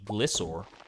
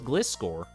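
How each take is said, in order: First: The C sound in the middle is silent. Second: The C sound in the middle is pronounced.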